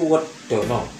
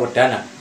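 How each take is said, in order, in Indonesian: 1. Vokalnya diucapkan seperti bunyi 'o' yang bulat. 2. Vokalnya diucapkan seperti bunyi 'a' yang terbuka. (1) "kalau orang Jawa bilang" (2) "tapi zaman dulu sebenarnya"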